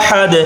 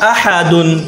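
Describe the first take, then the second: First: The word ends sharply on 'ahad' with no ending. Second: The word ends with a final '-un' syllable. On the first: The reciter stops at this word. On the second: The recitation continues without stopping.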